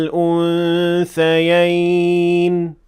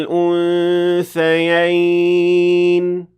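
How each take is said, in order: No difference in how they are said.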